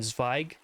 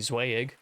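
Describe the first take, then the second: First: The name is pronounced the German way. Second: The name is pronounced the American English way. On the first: The speaker calls it right. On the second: The speaker calls it wrong.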